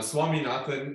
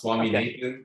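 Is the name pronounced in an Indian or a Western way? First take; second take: Indian; Western. First: The name is said with an Indian pronunciation. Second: The name is said with a Western pronunciation. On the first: "is sort of the uh, Indian way of saying it" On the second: "is sort of a Western way of saying it"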